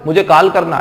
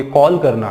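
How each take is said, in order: First: "कॉल" said as "काल" with open आ; mistaken aa vowel. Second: "कॉल" with a rounded ऑ; correct rounded vowel. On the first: Teacher asking if students would say it so, long aa vowel. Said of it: "ऐसा बोलोगे? नहीं बोलोगे". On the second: Teacher correcting the students' wrong version, rounded aw vowel. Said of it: "नहीं बोलोगे". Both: Shown as a demonstration.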